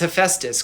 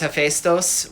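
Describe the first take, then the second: First: The name is pronounced in an English-like way. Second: The name is pronounced in a Greek-like way. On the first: "because I can make a funny rhyme with it" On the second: "which is more close to the Greek"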